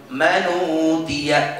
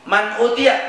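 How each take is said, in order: First: Slow "Manutia", hamzah dropped, long uu; joined recitation. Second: Said in the usual way. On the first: Shown as a demonstration. Teacher answers how to read it, slow and joined. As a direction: glide n straight into u in "Manutia". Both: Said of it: "Berarti baca gimana?".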